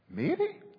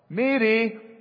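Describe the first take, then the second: First: The name is said in a questioning way. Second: The name is called out as if from afar. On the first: "Or maybe questioning" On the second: "Maybe calling"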